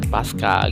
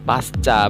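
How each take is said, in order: First: It is read with English-like letter sounds. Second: It is read with plain Indonesian letter sounds. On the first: The speaker calls it wrong. "bukan pasca gitu ya" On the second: The speaker calls it right. "harusnya bacanya tetap pasca"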